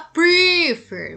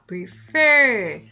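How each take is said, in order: First: The stress is on the first syllable. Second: The stress is on the second syllable. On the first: The speaker calls it wrong. "Você não fala prefer" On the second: The speaker calls it right. "você fala prefer ... a sílaba tônica está no fer"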